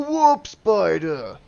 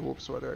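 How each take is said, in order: First: It is said in an exaggerated, put-on voice. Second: It is said in an ordinary, plain voice. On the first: The speaker calls it right. "That's how you're supposed to say it. Diomedes says it that way" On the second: The speaker calls it wrong. "Sorry, I said that wrong"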